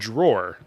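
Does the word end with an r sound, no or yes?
yes. The word ends with an r sound.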